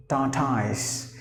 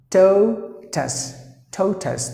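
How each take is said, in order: First: "tortoise" said by its spelling, TOR-toys; common mispronunciation. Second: "totus", tortoise with silent R, I and E; higher, spaced-out "totus", TOH-tus with a weak ending; correct pronunciation. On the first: Teacher imitates learners' error, "tortoise" with a spelled-out ending. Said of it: "most of the E S L speakers will pronounce the word as". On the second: Teacher models tortoise for learners, "totus" without silent letters. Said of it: "That's the way you have to pronounce". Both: Shown as a demonstration.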